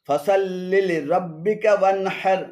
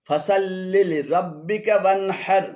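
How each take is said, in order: The two takes are said the same way.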